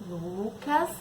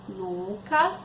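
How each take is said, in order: The two takes are said the same way.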